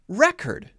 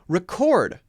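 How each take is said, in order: First: The stress is on the first syllable. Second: The stress is on the second syllable. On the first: It is a noun or adjective. "If it's a noun or an adjective, then we'll stress the other syllable, the first syllable" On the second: It is a verb. "If it's a verb, it's usually going to stress the second syllable"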